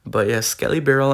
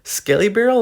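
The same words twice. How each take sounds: First: Said in the usual way. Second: Much higher, louder emphasis; excited. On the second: Real, not acted. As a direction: pump up the card name. Repeats card name with emphasis.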